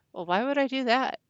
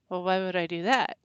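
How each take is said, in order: First: Higher, louder baffled "why would I do that"; incredulous question. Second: Said in the usual way. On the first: Retold or imitated. Retelling a stranger's accusation, she answers in higher, louder disbelief. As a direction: throw the question back, plainly baffled. Retold puzzled reply to accuser.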